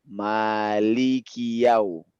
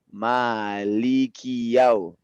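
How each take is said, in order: The two takes are said the same way.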